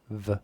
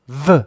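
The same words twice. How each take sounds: First: The consonant is said with normal, lighter force. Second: The consonant is punched out with strong force. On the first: "there's a lower peak" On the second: "there's a higher peak where I punch it"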